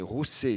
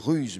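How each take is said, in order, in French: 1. Il se prononce comme 'roussé', en deux syllabes. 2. Il se prononce comme le mot français 'ruse'. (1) "mais c'est Rousset" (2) "On lit Ruse"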